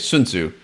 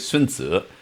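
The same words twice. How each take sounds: First: The name is said with Western English pronunciation. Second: The name is said with Chinese pronunciation.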